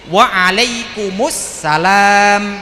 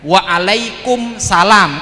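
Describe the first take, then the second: First: The 'al' sound before 'salam' is clearly heard. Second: The 'al' sound before 'salam' is dropped. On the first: The speaker calls it right. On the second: The speaker calls it wrong. "Kalau waalaikumsalam alnya sudah hilang"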